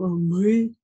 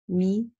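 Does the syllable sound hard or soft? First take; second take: hard; soft. First: The syllable is said with a hard, dark vowel. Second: The syllable is said with a soft, bright vowel. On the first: The speaker calls it wrong. "Не надо говорить ма, э, мы там" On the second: The speaker calls it right. "все голосовки после нее звучат, э, мягко"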